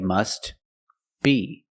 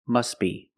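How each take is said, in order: First: The words are separated, with the T pronounced. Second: The words are linked, with the T silent. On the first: "If you separate the words and you pause between words" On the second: "if you link the words, you pronounce it"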